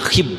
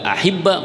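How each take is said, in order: First: The word ends with no final vowel. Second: The word ends in a short a vowel. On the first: The speaker calls it wrong. "Yang nggak boleh dibaca" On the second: The speaker calls it right. "harokat paling ringan adalah kas fathah"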